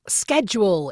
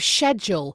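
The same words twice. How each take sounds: First: It is said with an American pronunciation. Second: It is said with a British pronunciation. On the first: It is the local way of saying it. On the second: It is the speaker's original way of saying it.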